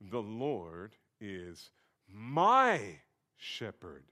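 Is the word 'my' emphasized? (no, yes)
yes. The word my carries strong emphasis.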